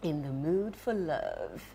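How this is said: It is said in a changed, put-on voice.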